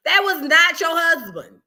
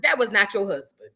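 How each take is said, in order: First: "That was not your husband" slow, high and loud; emphatic scolding. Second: Said in the usual way. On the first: Acted. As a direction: stretch and punch each word of "That was not your husband". Repeats scolding with more force.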